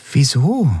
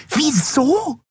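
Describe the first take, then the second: First: Said in the usual way. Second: Very high, indignant echo; shrill squeak of disbelief. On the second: A narrator's reading. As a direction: squeal the question back. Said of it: "wiederholte die Jadi schrill".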